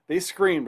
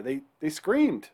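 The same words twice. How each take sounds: First: "They screamed" pushed higher and louder; emphatic repeat. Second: Said in the usual way. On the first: Shown as a demonstration. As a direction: hit "screamed" hard the second time. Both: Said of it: "repeats line to emphasise it".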